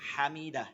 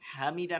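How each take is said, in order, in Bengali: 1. প্রথম 'ha' ধ্বনিটি লম্বা। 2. প্রথম 'ha' ধ্বনিটি ছোট। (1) "লম্বা হা" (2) "হামিদা না"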